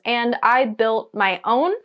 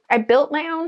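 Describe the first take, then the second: First: Said in the usual way. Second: I built my own with built pitched higher and punched; proud emphasis on built. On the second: Real, not acted. Vlogger proudly repeating that she made it, stress on built. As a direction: repeat it with pride, hitting built.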